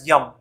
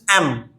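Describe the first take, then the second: First: The letter begins with a y sound. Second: The letter begins with a plain vowel sound. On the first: The speaker calls it wrong. "People pronounce it as yum, but this is not yum" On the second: The speaker calls it right. "This is M"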